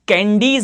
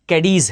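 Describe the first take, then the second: First: The first syllable has a nasal n sound. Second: The first syllable has no nasal sound. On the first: The speaker calls it wrong. "कैंडीज नहीं है" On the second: The speaker calls it right. "कैडीज है"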